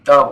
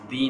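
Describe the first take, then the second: First: The vowel is a short, neutral 'uh' sound. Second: The vowel is a long, tense 'ee' sound. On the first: The speaker calls it right. "द बोलेंगे" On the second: The speaker calls it wrong. "दी नहीं"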